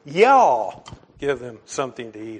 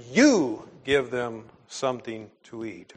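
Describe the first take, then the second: First: A joking Oklahoman "Y'all" for the home crowd; Oklahoma y'all. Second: "You" leaned on, the rest of the line level; stress on You. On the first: Pastor teasing former Oklahomans in the pews, mock Oklahoma accent. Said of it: "for the sake of our, uh, quite a few former Oklahomans". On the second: Preacher reading Jesus's command to his congregation, stress on "You". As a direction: press the word "You" as the Greek pronoun does. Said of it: "pronoun for emphasis here". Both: Shown as a demonstration.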